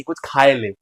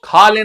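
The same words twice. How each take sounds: First: "खाए ले" with an extra vowel, खा-ए; Bundeli verb form. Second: Said in the usual way. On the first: Shown as a demonstration. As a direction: stretch "खाए ले" the Bundeli way, not खा. ("खाए ले" बुंदेली लहजे में, खा-ए) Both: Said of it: "तो खा ले नहीं".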